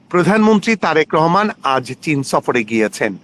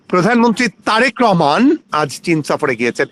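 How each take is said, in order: First: It is read flat, with no word stressed. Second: The name Tarique Rahman is stretched and stressed.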